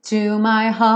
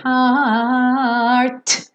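First: "heart" stretched on a very long A, T vanishing; long held A. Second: "heart" drawn out, ending in a hard released T; overemphasised final T. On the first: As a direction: hold the vowel of "heart" and drop the T. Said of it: "esse heart fica um tempão nesse, nesse som A". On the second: Teacher showing needless emphasis, exaggerated final T. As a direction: stretch "heart" and punch the final T. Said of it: "Não precisa dar toda essa ênfase". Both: Shown as a demonstration.

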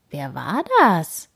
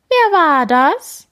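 First: Said in the usual way. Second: High, loud, slow blaring call back; blared echo. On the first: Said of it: "fragt Opa Gerd". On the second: A narrator's reading. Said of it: "schmettert es zurück".

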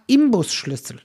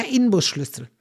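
First: Imbusschlüssel with M before B; common mispronunciation. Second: Inbusschlüssel with a clear N; Inbusschlüssel with N before B; correct Inbusschlüssel. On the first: Retold or imitated. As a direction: say "Im" to open Imbusschlüssel. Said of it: "Und jeder sagt". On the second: Shown as a demonstration. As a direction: keep "In" at the start of Inbusschlüssel. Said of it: "ist es nämlich ein N".

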